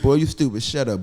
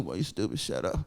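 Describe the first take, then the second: First: It is said in a plain voice. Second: It is said in a moaning voice.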